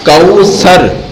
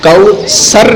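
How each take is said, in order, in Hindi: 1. बीच का व्यंजन नरम 'th' की आवाज़ है। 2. बीच का व्यंजन साधारण 's' की आवाज़ है। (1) "सा नरम पढ़ते हैं ना" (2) "कौसर नहीं बोलना"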